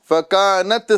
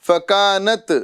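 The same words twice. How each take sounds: Both takes have the same delivery.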